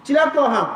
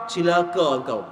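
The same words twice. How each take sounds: First: Louder, sharper rebuke in the local dialect; scolding curse. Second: Said in the usual way. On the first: Retold or imitated. Preacher voicing the cat owner cursing his friend, angry. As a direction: snap the curse at him like a scolding. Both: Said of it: "dia maki pula orang tu".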